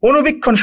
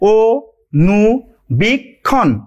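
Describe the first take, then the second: First: The word is said at normal speed. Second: The word is said slowly, syllable by syllable.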